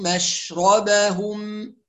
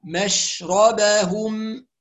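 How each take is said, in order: First: مشربهم slow, with a full clear ش; careful مشربهم; clear shin. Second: مشربهم slow, with a clearly voiced final ه. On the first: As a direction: stretch مشربهم so the ش is heard. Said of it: "نخلي بالنا من حرف الشين". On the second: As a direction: show the ه at the end of مشربهم. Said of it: "ونوضح حرف الهاء". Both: Shown as a demonstration.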